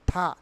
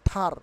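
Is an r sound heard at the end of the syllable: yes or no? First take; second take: no; yes. First: The syllable ends without an r sound. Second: The syllable ends with an r sound. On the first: The speaker calls it right. "আর will be silent হেয়ার" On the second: The speaker calls it wrong. "Not থার"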